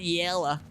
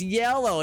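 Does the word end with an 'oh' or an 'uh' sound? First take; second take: uh; oh. First: The word ends with a reduced 'uh' sound. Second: The word ends with a clear 'oh' sound. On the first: The speaker calls it wrong. "not yella" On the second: The speaker calls it right. "it's yellow"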